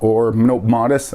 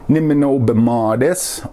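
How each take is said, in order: First: The phrase is said shortened, syllables run together. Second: The phrase is said in full, every syllable.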